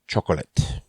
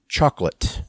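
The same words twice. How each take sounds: First: Every written syllable is pronounced in the word. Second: One written syllable is dropped from the word. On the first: The speaker calls it wrong. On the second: The speaker calls it right. "more syllables written than there are pronounced"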